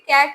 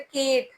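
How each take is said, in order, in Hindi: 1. स्वर, 'cat' का खुला 'a' है। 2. स्वर, 'bet' का बंद 'e' है। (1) "जैसे कैट है" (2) "तो ये मिस प्रोनाउंसिएशन है"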